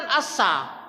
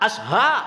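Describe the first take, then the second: First: The middle consonant is a plain s sound. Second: The middle consonant is an sh sound. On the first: The speaker calls it wrong. "Bukan asa" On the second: The speaker calls it right. "Sinnya tuh gerigi tiga titik tiga"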